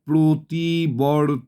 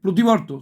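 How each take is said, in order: First: The word is read broken up, syllable by syllable. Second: The word is said smoothly as one unit. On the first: The reader is still decoding the letters. The speaker calls it wrong. "এরমভাবে পড়বে না" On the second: The word is already familiar from long habit. The speaker calls it right. "উচ্চারণ যে প্রতিবর্ত"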